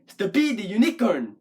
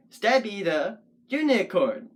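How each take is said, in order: First: Stabby the unicorn as stuh-BEE the you-NI-corn; weird wrong stresses. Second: Stabby the unicorn in measured beats, STAB and U strong; stress on STA and U. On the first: Puppet poet showing a weird-sounding rhythm, Stabby the unicorn stressed on wrong syllables. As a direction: shift Stabby and unicorn onto their second syllables. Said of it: "so the words don't sound weird". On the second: Puppet poet counting beats, Stabby the unicorn stressed on STAB and U. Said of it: "has emphasis on sta and u". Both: Shown as a demonstration.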